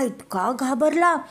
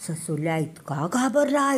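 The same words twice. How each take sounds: First: घाबरला repeated higher, stressed for drama; emphatic repeat. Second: Said in the usual way. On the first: A narrator's reading. Narrator stressing how scared the rabbit was. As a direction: lift and lean on घाबरला the second time.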